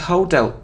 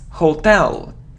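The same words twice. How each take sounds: First: The stress is on the first syllable. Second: The stress is on the second syllable. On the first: The speaker calls it wrong. "it isn't hotel" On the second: The speaker calls it right. "the stress is on the second syllable"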